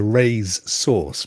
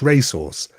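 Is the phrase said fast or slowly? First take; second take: slowly; fast. First: The phrase is said slowly and separately. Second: The phrase is said fast and run together.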